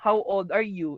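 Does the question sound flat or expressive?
flat. It is asked flatly, without interest.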